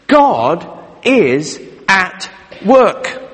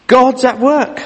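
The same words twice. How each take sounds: First: God is at work said very slowly, each word weighed; slow solemn declaration; slow emphatic statement. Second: God's at work lifted higher, rising at the end; lighter, higher echo of the point; higher bright restatement. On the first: Key point of sermon stated. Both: Acted.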